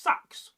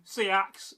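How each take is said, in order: First: "Sax" as one firm syllable; firm, grounded. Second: Said in the usual way. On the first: Shown as a demonstration. Teacher showing Saxony's pronunciation, firm grounded "Sax". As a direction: plant "Sax" firmly, one short vowel. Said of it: "firm and grounded". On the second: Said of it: "Seax is pronounced Sax".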